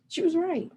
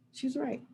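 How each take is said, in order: First: She was right, "was" stressed and pitched much higher; emphatic. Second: "right" said much softer, a quiet repeat; quiet echo. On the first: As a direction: insist hard that "was" is true. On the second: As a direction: let the words sink in softly. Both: Shown as a demonstration.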